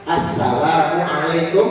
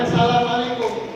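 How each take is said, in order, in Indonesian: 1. Salam ini dimulai dengan bunyi 'a' yang jelas. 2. Bunyi 'a' di awal salam ini hilang. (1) "Yang benar itu kan assalamualaikum" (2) "Jangan assalamualaikum"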